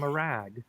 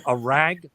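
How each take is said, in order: First: "rag" with an open, neutral short a; neutralized "rag". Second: "rag" with a Minnesota vowel, like "reg"; accented "rag". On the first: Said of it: "A rag became a rag". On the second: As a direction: say "rag" before neutralizing, close to "reg". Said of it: "I neutralized my accent". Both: Shown as a demonstration.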